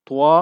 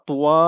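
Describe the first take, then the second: Both takes have the same delivery.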